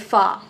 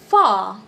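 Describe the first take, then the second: First: The vowel is short and clipped. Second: The vowel is long and drawn out. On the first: The speaker calls it wrong. "we don't say fa" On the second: The speaker calls it right. "it's an elongated ah"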